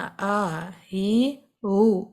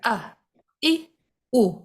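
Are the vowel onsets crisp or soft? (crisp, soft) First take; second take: soft; crisp. First: The vowels start softly, with a breathy onset. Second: The vowels start crisply, with a firm glottal catch. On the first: The speaker calls it wrong. "इसको आपने बिल्कुल लाइट नहीं लेना, आ ही ऊ इस तरह नहीं पढ़ना" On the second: The speaker calls it right. "हमजा को सख्ती से अदा करना"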